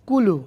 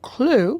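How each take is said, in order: First: A vowel separates the first two consonants. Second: The word begins with a consonant cluster. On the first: "সে বলবে কুলু" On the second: "আপনি বলবেন ক্লু"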